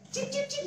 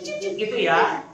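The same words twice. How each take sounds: First: Very high, soft chirping cip; bird chirps. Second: Said in the usual way. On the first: Shown as a demonstration. Leader showing kids the bird sound, high chirping. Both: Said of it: "tahu nggak suaranya gimana".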